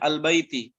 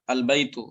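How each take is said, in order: First: The word ends with an 'i' vowel. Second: The word ends with a 'u' vowel.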